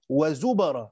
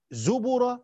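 First: Slow wa-zubara, b given a fatha. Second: Slow zubura, b given a damma. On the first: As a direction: stretch zubara with a in the middle. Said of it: "قراءة فتح". (زُبَرًا بفتح الباء) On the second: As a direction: stretch zubura with u in the middle. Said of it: "بضم الباء". (زُبُرًا بضم الباء) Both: Shown as a demonstration.

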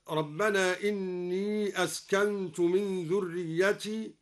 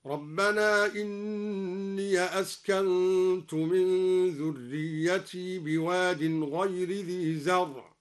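First: Said in the usual way. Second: إني chanted slowly with the ya opened, inniya; slow tajweed chant of إني as inniya; Quranic recitation. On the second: Shown as a demonstration. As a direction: recite إني with fatha on the ya in connected reading. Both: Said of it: "فتح الياء وصلا هكذا".

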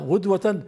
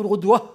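First: غدوة ending in a sounded -tan; pause on tanwin. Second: غدوة ending in -ah, without tanwin; wrong pausal ha ending. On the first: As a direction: say غدوة as ghudwatan, keeping t and n. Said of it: "نقف على التنوين بالتاء". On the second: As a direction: say غدوة as ghudwah, dropping the t. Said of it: "لا تقل". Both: Shown as a demonstration.

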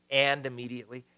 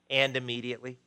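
The two takes are said the same way.

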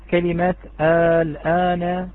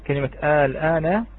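First: كلمة الآن stretched very slowly, with long vowels in الآن; drawn-out demo. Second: Said in the usual way. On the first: Shown as a demonstration. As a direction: dictate الآن, slowly lengthening every vowel. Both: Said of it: "الكلمة الأولى".

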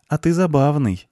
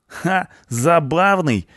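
First: High, lightly amused blonde voice; friendly amusement. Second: High, cocky echo of ЗАБАВНЫЙ; scoffing punk. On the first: Blonde finding the punk funny, friendly amusement. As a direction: say ЗАБАВНЫЙ as a light, high compliment. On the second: Punk echoing the blonde's compliment, cocky scoff. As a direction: throw ЗАБАВНЫЙ back with a scoff, pitched high. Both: A narrator's reading.

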